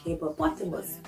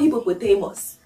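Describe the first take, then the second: First: It is said in the standard dictionary pronunciation. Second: It is said in a local Ghanaian pronunciation. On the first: The speaker calls it right. "like hippopotamus" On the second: The speaker calls it wrong. "It is not hippopotamus. As the typical Ghanaian would say"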